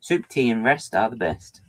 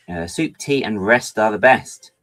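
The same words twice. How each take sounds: First: Said in the usual way. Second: Proverb read slowly. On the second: Shown as a demonstration. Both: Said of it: "That is a proverb".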